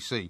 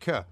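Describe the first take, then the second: First: The letter is said as its alphabet name. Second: The letter is said as a short phonic sound. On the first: "when I was saying, you know, to, to my younger son, A, B, C" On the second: "he's going at, but, k. That's how they're taught"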